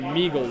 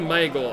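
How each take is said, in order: First: The name rhymes with Smeagol. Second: The name does not rhyme with Smeagol. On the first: This is how many other people say it. The speaker calls it wrong. "like Smeagol" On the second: This is the speaker's own preferred pronunciation. The speaker calls it right. "I say Meigel"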